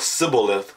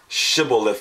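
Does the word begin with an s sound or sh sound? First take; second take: s sound; sh sound. First: The word begins with an s sound. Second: The word begins with an sh sound. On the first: The speaker calls it wrong. "with a s" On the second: The speaker calls it right. "with the sh sound"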